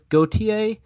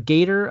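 First: The surname is pronounced the French way. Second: The surname is pronounced the English way.

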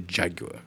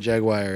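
First: It is said with a British pronunciation. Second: It is said with an American pronunciation. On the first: "If you're British, you say Jaguar" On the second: "If you're American, you say Jaguar"

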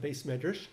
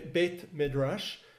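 First: It is said with an Ashkenazi pronunciation. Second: It is said with a Sephardic pronunciation.

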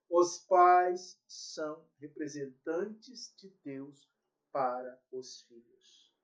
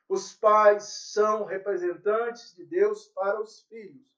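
First: It is said very slowly. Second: It is said at a normal pace.

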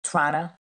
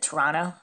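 First: Toronto is pronounced the way Canadians say it. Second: The same.

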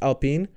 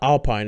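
First: The word is pronounced the French way. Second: The word is pronounced the English way. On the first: The speaker calls it right. "It's a French team. I think it's Alpine" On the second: The speaker calls it wrong. "It's not Alpine"

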